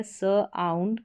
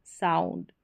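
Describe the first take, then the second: First: स आउंड in two parts, "suh - aund"; sounding out. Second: Said in the usual way. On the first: Shown as a demonstration. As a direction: hold स apart from आउंड. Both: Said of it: "इसका उच्चारण आउंड करके".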